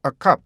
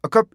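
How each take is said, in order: First: "a cup" with a held stop, then released "p"; correct two beats. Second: "a cup" as closed 어컵, no released "p"; mistaken single beat. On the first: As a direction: pause on the closure of "cup" and puff the "p". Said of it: "이렇게 돼야 돼요". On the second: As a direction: cram "a cup" together without the final puff. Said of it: "A cup 이게 아니고". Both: Shown as a demonstration.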